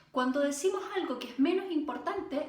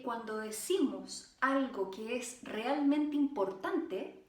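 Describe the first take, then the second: First: Said in the usual way. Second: Slow and deliberate; slow down on what matters; slow for importance. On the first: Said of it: "nos podemos apurar más en el ritmo". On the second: Shown as a demonstration. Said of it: "cuando decimos algo que es realmente importante, es lento".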